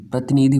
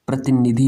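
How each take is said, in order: First: प्रतिनिधि with a stretched "nee"; wrong long-vowel form. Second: प्रतिनिधि with a short "ni"; correct short-vowel form. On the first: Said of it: "भाई गलत हो जाएगा". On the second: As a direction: say प्रतिनिधि as "prati-ni-dhi", no stretched vowel. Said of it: "होता है". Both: Shown as a demonstration.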